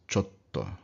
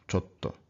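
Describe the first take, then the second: The two takes are said the same way.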